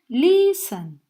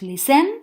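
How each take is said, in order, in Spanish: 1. El acento está en la primera sílaba. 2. El acento está en la última sílaba. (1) "sino que decimos listen" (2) "No decimos listen, como begin"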